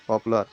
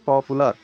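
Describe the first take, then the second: First: Said in the usual way. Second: पॉपुलर broken loudly into three syllables. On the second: Shown as a demonstration. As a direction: punch out पॉपुलर part by part. (पॉपुलर को ज़ोर से, तीन हिस्सों में बोलें) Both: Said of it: "जैसे आप उसका उच्चारण कीजिएगा".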